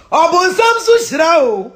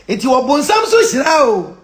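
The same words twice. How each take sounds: First: Higher, loud, slow repeat; loud, drawn-out proclamation; louder insistence. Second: Slow, drawn-out statement; slow and forceful; emphatic declaration. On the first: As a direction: raise the voice and drive it home. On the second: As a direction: stretch it out firmly. First emphatic take. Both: Real, not acted.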